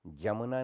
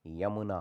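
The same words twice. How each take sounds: First: जमुना starting with a j. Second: Said in the usual way. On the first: Shown as a demonstration. Teacher shows the error, जमुना with j. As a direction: say jamuna for yamuna, जमुना. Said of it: "नहीं होता". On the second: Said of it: "होता है".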